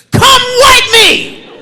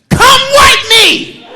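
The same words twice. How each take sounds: First: High, slow mock toddler yell; kid screaming. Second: High, slow mock toddler scream; kid screaming. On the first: Son screaming from bathroom. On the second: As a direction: yell it like a toddler demanding from the bathroom. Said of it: "a three-year-old screaming from the bathroom door".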